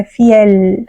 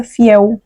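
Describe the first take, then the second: First: Fiel with a clear, long L at the end; clear Spanish L. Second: Fiel said as Portuguese "fiéu", final L turned to U; Portuguese-style fiel. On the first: Teacher to students, fiel with a long clear L. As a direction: hold the L in fiel. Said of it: "com a L prolongada". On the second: Teacher showing students the Brazilian mistake, fiel ending in U. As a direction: end fiel with a U sound, Brazilian way. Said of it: "a gente pronunciaria fiel, com aquele U no final". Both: Shown as a demonstration.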